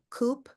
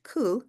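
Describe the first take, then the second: First: The word is pronounced the plain English way. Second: The word is pronounced the French way. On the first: "So coop" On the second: "but we pronounce it in the French"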